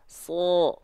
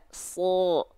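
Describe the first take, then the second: First: The vowel is a heavy, rounded 'o'. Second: The same.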